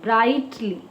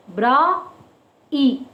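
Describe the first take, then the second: First: Said in the usual way. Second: "Bra, E" as two isolated sounds with a long gap; broken into syllables. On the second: Shown as a demonstration. Teacher showing children two vowel sounds, "Bra... E" syllable by syllable. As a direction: sound out "Bra", pause, then "E". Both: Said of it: "A and E sound".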